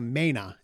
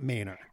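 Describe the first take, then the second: First: The word ends without an r sound. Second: The word ends with an r sound. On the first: This is the local way of saying it. The speaker calls it right. "that's how you say it here in Maine" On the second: This is not how it is said locally. The speaker calls it wrong. "It's not Mainer"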